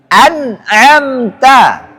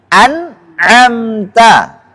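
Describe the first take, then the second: The two takes are said the same way.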